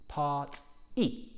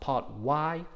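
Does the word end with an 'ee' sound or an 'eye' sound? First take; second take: ee; eye. First: The word ends with a sharp 'ee' sound. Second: The word ends with an 'eye' sound. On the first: The speaker calls it right. "there is a sharp E at the end" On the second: The speaker calls it wrong. "So not part Y"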